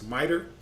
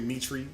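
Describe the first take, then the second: First: The word ends with an 'er' sound. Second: The word ends with an 'ee' sound. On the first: The speaker calls it right. "It's miter" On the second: The speaker calls it wrong. "sometimes we say mitri, but that's not how you pronounce the"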